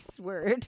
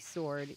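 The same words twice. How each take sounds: First: Sword is said with the w, rhyming with word. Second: Sword is said normally with a silent w. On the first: "he changes the pronunciation of the word sword" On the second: "instead of"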